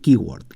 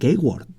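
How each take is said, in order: First: It is said with an English pronunciation. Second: It is said with a Spanish-style pronunciation. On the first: The speaker calls it right. "se dice keyword" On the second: The speaker calls it wrong. "no se dice keyword"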